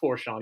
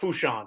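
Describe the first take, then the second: First: The name is said with an R sound. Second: The name is said without an R sound. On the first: The speaker calls it wrong. "You don't pronounce that R" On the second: The speaker calls it right. "I got to say it right"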